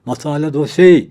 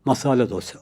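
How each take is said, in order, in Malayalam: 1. ഇത് വളരെ ഉച്ചത്തിൽ വിളിച്ചു പറയുന്നു. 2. ഇത് പതുക്കെയും മൃദുവായും പറയുന്നു. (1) "വളരെ ഉച്ചത്തിലാണ് വിളിച്ച് കൂവുന്നത്" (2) "ഞാനത് വളരെ പതുക്കെയാണ് പറഞ്ഞത്"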